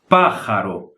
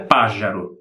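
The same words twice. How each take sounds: First: The j is a harsh sound in the throat. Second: The j is a soft buzzing zh sound. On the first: The speaker calls it right. "se pronuncia pájaro. ... como se fosse a R forte do Brasil" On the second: The speaker calls it wrong. "Mas não se pronuncia pájaro"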